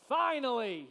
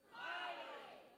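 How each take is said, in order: First: Loud relieved cry of finally; relieved exclamation. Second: Slow, unvoiced breathed Finally with relief; breathy sigh of relief. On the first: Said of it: "who breathed this deep sigh of relief, and he said". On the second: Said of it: "who breathed this deep sigh of relief". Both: Shown as a demonstration.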